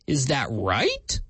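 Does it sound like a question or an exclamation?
question. It is said as a real question.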